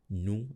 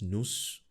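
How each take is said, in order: First: The final s is not pronounced. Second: The final s is pronounced. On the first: The speaker calls it right. "I'm not pronouncing nous as nous" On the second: The speaker calls it wrong. "I'm not pronouncing nous as nous"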